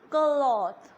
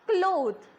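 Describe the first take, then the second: First: The vowel sounds like 'aw'. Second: The vowel sounds like 'oh'. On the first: The speaker calls it right. "instead of O, we are going to use A W. So it will be cloth" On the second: The speaker calls it wrong. "we call it as cloth, which is not correct"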